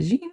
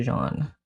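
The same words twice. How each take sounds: First: "Jean" with a long ee vowel; anglicized pronunciation. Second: "Jean" the French way, like "zhahn"; French pronunciation. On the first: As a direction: say "Jean" to rhyme with "seen". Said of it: "How do I pronounce your name?". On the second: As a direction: say "Jean" with a soft zh and open ah. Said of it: "more of a French accent". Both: Shown as a demonstration.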